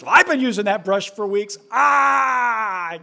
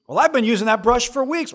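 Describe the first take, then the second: First: High, loud fake sobbing kid, fast; mock crying wail. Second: Put-on whiny kid. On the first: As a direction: wail it like a child in a tantrum. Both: Kids quarrel voiced.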